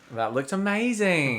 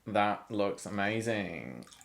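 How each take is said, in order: First: It sounds warm and sincere. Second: It sounds flat and insincere.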